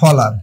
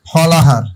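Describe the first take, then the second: First: No h sound is heard before the last vowel. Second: An h sound is heard before the last vowel. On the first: "ফলাহার হয়ে যাবে ফলার" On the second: "ফ লা হার"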